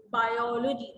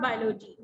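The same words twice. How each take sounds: First: "Biology" in full syllables, bai-O-lo-ji; correct pronunciation. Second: "biology" squashed to "bai-lo-ji", first O dropped; wrong pronunciation. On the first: Teacher correcting a student reading aloud, correctly pronounced "Biology". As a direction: give "Biology" its separate O after "bai". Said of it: "do we pronounce it?". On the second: Teacher correcting a student reading aloud, mispronounced "biology". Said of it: "Not biology". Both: Shown as a demonstration.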